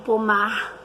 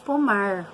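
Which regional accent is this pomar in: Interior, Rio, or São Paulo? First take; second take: Rio; Interior. First: It is said in a Rio de Janeiro accent. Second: It is said in a rural inland accent. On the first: "Os cariocas falam pomar" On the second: "Nós aqui no interior falamos pomar"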